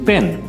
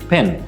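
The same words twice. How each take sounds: First: The opening p has no puff of air. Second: The opening p has a puff of air. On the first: The speaker calls it wrong. "এই লেটারটাকে আমরা বলি পি এবং সেই জন্য এই ওয়ার্ডটাকে আমরা বলি" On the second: The speaker calls it right. "Correct pronunciation হচ্ছে ফি এবং সেই জন্য এই ওয়ার্ডটার কারেক্ট প্রোনাউন্সিয়েশন হচ্ছে"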